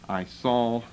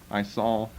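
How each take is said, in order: Both takes have the same delivery.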